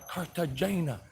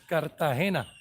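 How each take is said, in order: First: The name is said with English pronunciation. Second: The name is said with Spanish pronunciation. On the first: "as English-speaking people that don't speak Spanish would pronounce it" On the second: "but really in Spanish"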